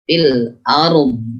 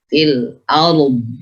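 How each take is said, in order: First: The final sound keeps flowing and is drawn out. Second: The final sound keeps flowing and is drawn out.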